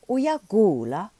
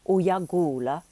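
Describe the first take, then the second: First: It is said with question intonation. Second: It is said with statement intonation. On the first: It asks someone whether they are sick. "Or you can ask it as a question" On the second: It tells someone they are sick. "you can make a statement"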